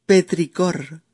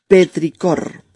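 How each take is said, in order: First: Said in the usual way. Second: "Petricor" said louder and clearly; announcing. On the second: Shown as a demonstration. Teacher repeating the new word to listeners, louder. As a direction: present "Petricor" firmly as the word of the day.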